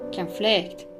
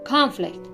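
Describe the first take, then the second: First: The stress is on the second syllable. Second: The stress is on the first syllable. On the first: It is used as a verb. "the verbs on the second" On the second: It is used as a noun. "the nouns stress is placed on the first syllable"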